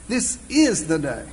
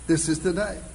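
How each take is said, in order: First: The word "is" carries the stress. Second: The word "day" carries the stress.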